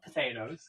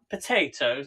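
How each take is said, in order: First: It is said in an American accent. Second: It is said in a British accent. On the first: The speaker calls it wrong. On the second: The speaker calls it right.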